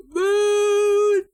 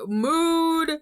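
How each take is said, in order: First: Very loud, very high squeal; high-pitched shriek. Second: Loud and high, full of glee; excited shout. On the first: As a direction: scream it with delight. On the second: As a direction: belt it out. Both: Real, not acted. Excited exclamation.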